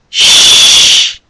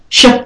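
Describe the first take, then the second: First: The sh is long with lots of air. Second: The sh is short with little air. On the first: The speaker calls it right. "Sh and ch have to have lots of air" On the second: The speaker calls it wrong. "It's not ch, ch and sh"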